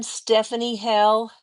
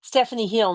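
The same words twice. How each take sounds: First: "Hell" said with an open e, like hell; "Stephanie Hell" with the vowel of hell; "Hell" rhymes with bell; misread name. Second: "Hill" said with a short i, like hill; "Stephanie Hill" with the vowel of hill; "Hill" rhymes with fill; corrected name. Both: Real, not acted. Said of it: "not Hell".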